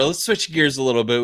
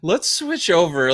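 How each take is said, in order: First: Said in the usual way. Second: High, loud slow announcer boom; monster truck announcer. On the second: Retold or imitated. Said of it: "me in that voice".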